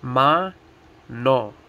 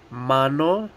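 First: Ma-no as MA, pause, NO; Ma-no in two separate, slow beats; split into syllables. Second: Said in the usual way. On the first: Shown as a demonstration. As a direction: say Ma-no one syllable at a time. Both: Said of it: "Two syllables, each one".

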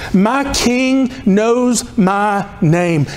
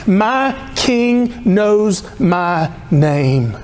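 No difference in how they are said.

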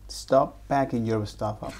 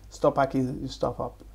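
First: Laughing through the words. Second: Said in the usual way. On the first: Retold or imitated. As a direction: giggle while repeating it. Student parrots teacher, laughing.

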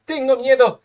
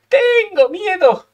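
First: Said in the usual way. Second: High, drawn-out wail of dread; hammed-up fear. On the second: Real, not acted. Gamer dreading the next turn, hammed-up fearful wail. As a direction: stretch the first word high, playing up the fear.

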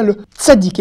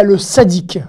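First: "tzaddik" with a crisp initial ts; TS pronunciation. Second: "sadique" with a simple initial s; "sadique" opening on a pure s sound; plain S pronunciation. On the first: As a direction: begin "tzaddik" on a t fused into s. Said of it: "je dis bien le tzaddik". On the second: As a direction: begin "sadique" on s alone, without any t. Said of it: "et pas le sadique". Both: Shown as a demonstration.

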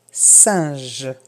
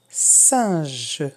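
Both takes have the same delivery.

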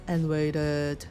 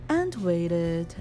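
Both takes have the same delivery.

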